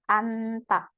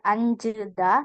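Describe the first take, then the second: First: The word ends in ta. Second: The word ends in jeda. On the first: The speaker calls it right. "Rebun bacanya anta" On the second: The speaker calls it wrong. "bukan anjeda"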